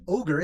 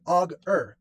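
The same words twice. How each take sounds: First: Said in the usual way. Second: "Og-er" said slowly as Og then er; split apart. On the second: Shown as a demonstration. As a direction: stretch "Og-er" into two clear parts, Og plus er. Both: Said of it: "the word Og-er".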